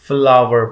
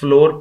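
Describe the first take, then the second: First: The word sounds like 'flower'. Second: The word sounds like 'floor'. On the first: The speaker calls it right. "इसे फ्लावर पढ़ते हैं" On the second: The speaker calls it wrong. "ये wrong pronunciation है, incorrect pronounce करते हैं कुछ लोग"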